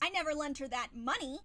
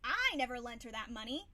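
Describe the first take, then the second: First: The stress falls on the word money. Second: The stress falls on the word I. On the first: Something other than money was lent. "I could have lent her something, but not money" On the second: Someone else lent the money. "Somebody else may have, but not me"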